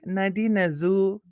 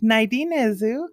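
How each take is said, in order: First: It is said with a native Indigenous-language accent. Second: It is said with an anglicized, English-sounding accent. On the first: "when I'm like with like other B I P O C people" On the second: It is how the speaker says it to outsiders. "which is like very Caucasian"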